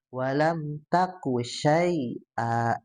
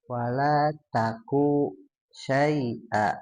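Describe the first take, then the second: First: The vowel in taku is kept short. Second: The vowel in taku is drawn out longer. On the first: The speaker calls it right. "itu pendek saja" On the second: The speaker calls it wrong. "Tadi agak sedikit panjang, satu setengah ya"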